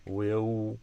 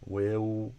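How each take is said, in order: First: It ends in a rounded oo sound. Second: It ends in a rounded oo sound.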